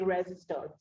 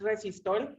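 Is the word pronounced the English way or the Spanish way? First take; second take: English; Spanish. First: It is said with an English pronunciation. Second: It is said with a Mexican Spanish pronunciation. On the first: This is how it is said in English. "in English will be resistol" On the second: This is how it is said in Mexico. "For us in Mexico is resistol"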